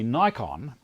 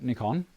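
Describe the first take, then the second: First: The name is said the American way. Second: The name is said the Australian, Japanese-like way. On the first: This follows the English spelling with one K. "In the States, they say Nikon because only one K following" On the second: This follows how the Japanese say it. "in Australia, we call it Nikon because that's how the Japanese pronounce it"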